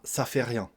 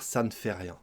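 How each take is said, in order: First: The negation word 'ne' is dropped entirely. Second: The negation word 'ne' is clearly pronounced. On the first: The speaker calls it wrong. "On va souvent manger le nœud et ça donnera ça fait rien" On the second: The speaker calls it right. "Mais on devrait dire ça ne fait rien"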